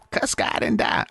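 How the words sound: It imitates the old inmate's voice.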